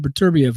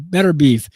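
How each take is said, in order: First: The name ends in two syllables, 'bee-ev'. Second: The name ends in a single syllable, 'beef'. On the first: This is how the speaker says the name. "but Artur Beterbiev" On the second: This is how some other people say the name. "Some people pronounce his name Better Beef"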